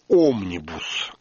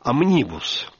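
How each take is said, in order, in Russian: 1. Ударение не на втором слоге. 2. Ударение на втором слоге. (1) "По-русски вроде бы принято говорить «омнибус»" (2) "оно произносится с ударением на втором слоге"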